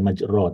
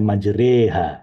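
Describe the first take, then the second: First: The vowel after the r is o. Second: The vowel after the r is e. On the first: The speaker calls it wrong. "bukan majro" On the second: The speaker calls it right. "Jadi ini bacanya majreha"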